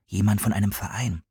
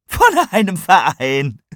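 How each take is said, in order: First: Said in the usual way. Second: Loud, high, drawn-out disbelief; yelled mocking echo, breaking into laughter; shrieking with laughter. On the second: A narrator's reading. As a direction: shout it slowly, incredulous and amused. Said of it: "Tigani schrie vor Lachen".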